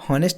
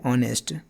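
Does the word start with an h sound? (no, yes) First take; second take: yes; no. First: The word begins with an audible h sound. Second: The word begins directly with a vowel sound. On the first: The speaker calls it wrong. "हॉनेस्ट मत पढ़ दीजिएगा, नहीं तो ये answer गलत हो जाएगा" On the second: The speaker calls it right. "आ बोल रहे हैं"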